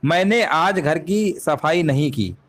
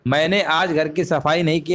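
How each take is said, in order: First: Slow, deliberate reading of मैंने आज घर की सफाई नहीं की; measured teacher read; slow dictation. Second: Said in the usual way. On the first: Shown as a demonstration. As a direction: read it out word by word for the class. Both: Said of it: "वाक्य के अनुसार".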